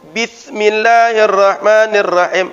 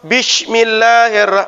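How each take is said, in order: First: The s sound is said as th. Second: The s sound is said as sh. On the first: "pakai tha" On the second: "pakai shin"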